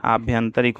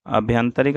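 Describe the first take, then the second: First: आभ्यंतरिक opened with long "aa"; long first vowel. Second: अभ्यंतरिक opened with short "a"; wrong short first vowel. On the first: Teacher giving the correct form, आभ्यंतरिक with long opening aa. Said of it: "आभ्यंतरिक होता है". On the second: Teacher showing the mistake, अभ्यंतरिक with short opening a. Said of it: "अभ्यंतरिक नहीं होता है". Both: Shown as a demonstration.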